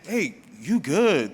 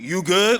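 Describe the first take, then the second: First: It sounds calming, trying to defuse tension. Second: It sounds confrontational, trying to raise tension.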